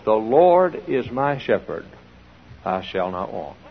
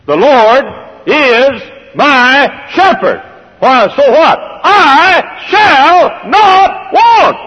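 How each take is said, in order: First: Quiet reading. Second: Booming, drawn-out proclamation of the psalm; preacher thunders the verse, slow and loud; proclaimed loudly. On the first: Preacher quotes psalm softly. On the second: Preacher to congregation, a slow shouted proclamation. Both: Acted.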